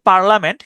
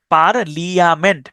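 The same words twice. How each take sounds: First: Said in the usual way. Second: Slow, with the I sounded in "পার্লিয়ামেন্ট"; spelled-out IA. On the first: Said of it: "উচ্চারণটা হচ্ছে". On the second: Shown as a demonstration. Teacher offers an easier memory aid, slow spelled-out "পার্লিয়ামেন্ট". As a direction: say "পার্লিয়ামেন্ট" slowly, par-li-a-ment. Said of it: "আপনার সুবিধার জন্য আপনি উচ্চারণ করতে পারেন".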